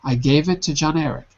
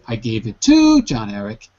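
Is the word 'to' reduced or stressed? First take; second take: reduced; stressed. First: The word 'to' is unstressed, with its vowel swallowed. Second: The word 'to' is stressed, with its full vowel. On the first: The speaker calls it right. "there's no stress on to because it's not important" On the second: The speaker calls it wrong. "if you put stress on to, it sounds really weird"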